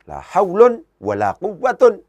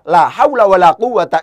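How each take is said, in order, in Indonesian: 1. Kedua kata benda berakhir dengan -un, dengan tanwin. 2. Kedua kata benda berakhir dengan a pendek, tanpa tanwin. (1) "dengan menjadikan haulun sebagai mubtada" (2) "La haula tidak ditanwin di situ"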